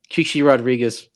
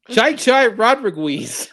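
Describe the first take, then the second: First: The first name is said as 'chee chee'. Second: The first name is said as 'chai chai'. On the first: Another character says it the proper way. The speaker calls it right. "and then uh, Johnny Fever" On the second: A character who does not know sports mispronounces it. The speaker calls it wrong. "he could not uh, pronounce the, the the name of uh, golfer Chichi Rodriguez"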